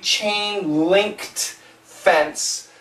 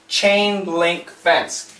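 First: There is a 't' sound after 'link'. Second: There is no 't' sound after 'link'. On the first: The speaker calls it wrong. "it actually should be chain linked fence, but we don't say this" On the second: The speaker calls it right. "It's very rare do we say the ED. So chain link fence"

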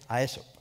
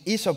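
First: The name is said with a Spanish pronunciation. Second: The name is said with an English pronunciation. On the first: "because being Spanish, you would say Aesop" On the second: "just pronouncing Aesop for me was a bit of a difficult thing"

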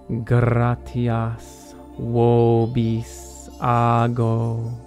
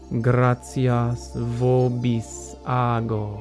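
First: It uses the classical Roman Latin pronunciation. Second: It uses the Italian ecclesiastical Latin pronunciation. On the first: "I mostly speak in the Roman pronunciation, so I'll always start with that" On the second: "here's the Italian or ecclesiastical pronunciation"

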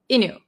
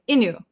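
First: The T sound is dropped in fast speech. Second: The T sound is dropped in fast speech.

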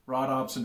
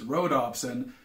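First: The first syllable sounds like 'rod'. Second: The first syllable sounds like 'row'. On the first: The speaker calls it wrong. "I both misspelled and mispronounced that. It's not rhodopsin" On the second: The speaker calls it right. "it's rhodopsin, named after the Greek word for rose"

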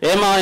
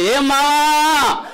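First: It is said with ordinary, relaxed energy. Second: It is said with very high energy.

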